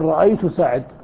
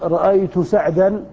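First: The last word ends on a bare consonant. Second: The last word ends with a long 'a' vowel.

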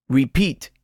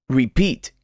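The two takes are said the same way.

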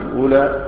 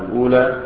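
Both takes have the same delivery.

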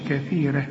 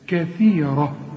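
First: The r sound is light and thin. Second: The r sound is heavy and full. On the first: The speaker calls it wrong. "ما تقولش كثيرة" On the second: The speaker calls it right. "الراء هنا مفخمة"

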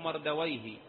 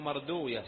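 First: The name ends in a '-wayh' sound. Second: The name ends in a '-uyah' sound. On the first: This is the form used by language scholars. "وأهل اللغة ينطقونه مردويه" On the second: This is the form used by hadith scholars. "فإن أهل الحديث ينطقون هذا الاسم الأعجمي، ينطقونه مردوية"

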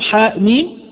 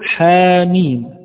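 First: The first syllable ends in a glottal stop. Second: The first vowel runs straight into the next syllable. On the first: The speaker calls it wrong. "لا أقول حاء ميم" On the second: The speaker calls it right. "ولكن أقول حاميم"

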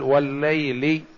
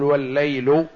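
First: The word ends with the genitive i vowel. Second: The word ends with a non-genitive vowel. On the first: The speaker calls it right. "مقسما به مجرورا بها لأنها حرف جر" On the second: The speaker calls it wrong. "ولا يصح أن نقول"

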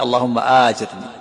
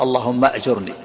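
First: The first vowel of the verb is long. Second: The first vowel of the verb is short. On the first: "مد الهمزة مع كسر الجيم" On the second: "والقصر اللهم أجرني مع سكون الهمزة وضم الجيم"

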